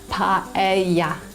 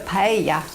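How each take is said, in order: First: The syllables are said separately and slowly. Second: The syllables are run together smoothly.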